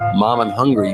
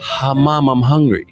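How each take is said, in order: First: It starts directly on the m sound. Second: It starts with a breathy h sound. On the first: "instead of saying" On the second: "you can put an H sound in front of a word"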